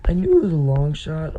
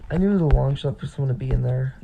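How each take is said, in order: First: Voice cracking. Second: Said in the usual way. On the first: Real, not acted. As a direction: voice cracks mid-sentence. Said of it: "Oh my gosh, my voice just cracked". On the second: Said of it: "my voice just cracked".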